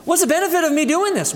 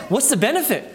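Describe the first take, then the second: First: Fast, higher, scornful scoff; mock wicked scoff. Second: A lightly voiced scoffing sinner; mock wicked scoff. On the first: Preacher voicing the wicked for the brethren, a fast higher scoff. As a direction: toss it off quickly like it is a waste. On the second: Preacher voicing the wicked for the brethren, a mild scoff. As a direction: shrug it off as pointless. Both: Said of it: "that's how the wicked sound".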